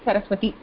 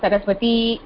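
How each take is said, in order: First: The final i vowel is short. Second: The final i vowel is long. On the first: The speaker calls it right. "the nominal stem will be hraswa ikara, which is Saraswati" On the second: The speaker calls it wrong. "not Saraswati"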